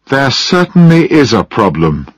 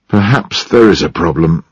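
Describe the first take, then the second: First: Raised, high-pitched alarm; loud and high. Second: Mildly sad, reluctant admission. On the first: Mary answering John after a long silence, loud and high. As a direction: push the pitch up in protest. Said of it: "Mary's voice sounded loud and high". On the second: John admitting to Mary there may be a problem, sad. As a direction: say it with subdued regret. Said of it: "he said at last sadly". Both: A narrator's reading.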